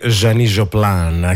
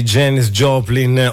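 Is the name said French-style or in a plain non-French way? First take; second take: French; non-French. First: The name is said with a French accent. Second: The name is said without a French accent.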